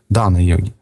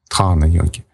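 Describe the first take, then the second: First: The d is said without a following h sound. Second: The d is followed by a soft h sound. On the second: "Хэ, оно мягкое в санскрите, так читается"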